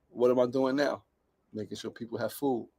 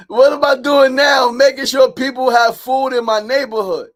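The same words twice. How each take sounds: First: Low, soft question and answer; quiet reflection. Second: High, loud proclamation; exuberant shout. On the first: Man reflecting on following his grandfather, quiet and low. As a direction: say it low, almost to yourself. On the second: Man proud of feeding his neighborhood, exuberant high shout. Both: Real, not acted.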